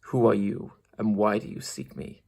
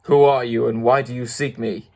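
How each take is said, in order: First: Soft, low-key growling challenge; softer, hushed growling beast; quiet growl. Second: Understated roaring challenge; mild beast roar. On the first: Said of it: "the low, quiet growl". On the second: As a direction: demand it like a big beast. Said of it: "in a voice that was one great roar". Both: Acted.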